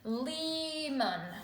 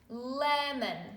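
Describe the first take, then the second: First: The first vowel is long, like 'ee'. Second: The first vowel is short, like 'eh'. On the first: The speaker calls it wrong. "this would have a long vowel sound" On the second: The speaker calls it right. "Let's try a short vowel"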